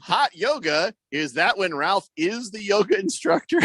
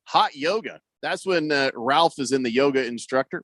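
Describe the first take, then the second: First: "Hot yoga" higher, rising at the end; re-read "Is that when" as a question, pitched up; careful re-read. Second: "Hot yoga" as a falling statement; misread statement. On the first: Radio host correcting a misread text, "Hot yoga" lifted into a question. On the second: Radio host misreading a listener's text, "Hot yoga" said as a statement. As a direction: run "is in the yoga instructor" on as a plain statement. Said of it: "I really read that wrong". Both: Shown as a demonstration.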